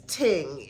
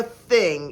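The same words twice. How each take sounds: First: "ting" with a hard t. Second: Said in the usual way. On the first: Shown as a demonstration. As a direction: say "ting", a t in place of th. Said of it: "It was always ting". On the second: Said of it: "there was never a thing".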